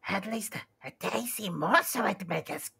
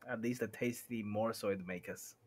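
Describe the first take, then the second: First: It is said in a raspy Gollum voice. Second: It is said in a plain normal voice.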